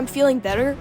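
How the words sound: The voice is clear and healthy. "it didn't sound like I'm saying it right now"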